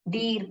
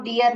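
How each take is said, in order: First: The vowel is one long 'ee' before r. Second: The vowel breaks into two syllables, 'dee-yar'. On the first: The speaker calls it right. "डीर पढ़ते हैं" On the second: The speaker calls it wrong. "इसको डियर नहीं पढ़ते हैं"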